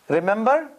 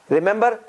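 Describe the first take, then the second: Both takes have the same delivery.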